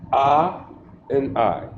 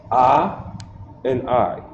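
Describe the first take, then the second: No difference in how they are said.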